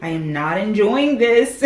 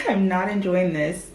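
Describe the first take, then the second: First: Fed-up complaint. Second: Laughing repeat. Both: Real, not acted.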